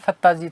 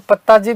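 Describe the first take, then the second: First: The name begins with an f sound. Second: The name begins with a p sound. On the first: The speaker calls it right. "वस्तुतः फत्ता जी थे" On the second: The speaker calls it wrong. "कई लोग इसको फत्ता जी को पत्ता जी भी बोलते हैं, लेकिन वो गलत है"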